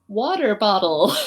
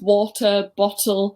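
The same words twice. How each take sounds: First: It is said in an American accent. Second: It is said in an English accent.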